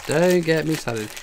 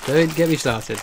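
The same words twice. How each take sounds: First: Drawn-out "Don't", slowly delivered; emphatic slow repeat. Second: Said in the usual way. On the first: Real, not acted. Streamer grumbling about the alien game, slow and emphatic. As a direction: stretch DON'T and slow the phrase down.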